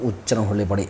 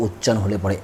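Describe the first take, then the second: No difference in how they are said.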